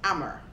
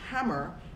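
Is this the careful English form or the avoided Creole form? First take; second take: avoided Creole; careful English. First: It uses the avoided Creole pronunciation of hammer. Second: It uses the careful English pronunciation of hammer. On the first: The speaker comes from a rural area. "and not hammer" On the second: The speaker is fitting into an urban English context. "They will also be careful to say hammer"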